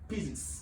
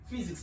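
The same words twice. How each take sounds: First: The word begins without an F sound. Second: The word begins with an F sound. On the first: The speaker calls it wrong. "not physics" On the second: The speaker calls it right. "This P H Y is pronounced as F"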